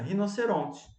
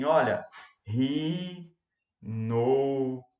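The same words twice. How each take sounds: First: Said in the usual way. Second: "Olha, rinoceronte" drawn out very slowly, syllable by syllable; exaggerated slow dictation, wrong way; stretched, syllabified dictation. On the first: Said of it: "você vai ditar como você fala normalmente". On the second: Shown as a demonstration. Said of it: "esticando a palavra ou silabando a palavra".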